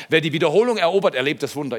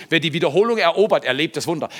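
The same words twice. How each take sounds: First: Same motto again, loud and fast; proclaimed motto. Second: Loud, fast, driving proclamation; proclaimed motto. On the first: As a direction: drive it home once more. Motto repeated. (laut und schnell wiederholt) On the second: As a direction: hammer the motto home. (laut und schnell verkündet) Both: Real, not acted.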